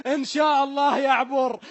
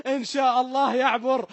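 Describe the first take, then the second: No difference in how they are said.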